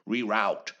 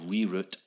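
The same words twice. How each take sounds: First: The word is said in an American accent. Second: The word is said in a non-American accent.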